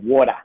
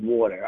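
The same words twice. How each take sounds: First: Water ends without an R, Australian style. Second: Water ends with a clear American-style R.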